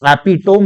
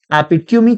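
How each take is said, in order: First: एपिटोम as "api-tome", three syllables; wrong pronunciation. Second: एपिट्यूमी as "api-tyoo-mee", four syllables; correct pronunciation. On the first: Teacher rejects the common reading, एपिटोम as api-tome. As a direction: finish एपिटोम on tome without final ee. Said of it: "एपिटोम नहीं". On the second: Teacher gives the right reading, एपिट्यूमी as api-tyoo-mee. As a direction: finish एपिट्यूमी on a sounded mee. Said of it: "एपिट्यूमी कहना चाहिए". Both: Shown as a demonstration.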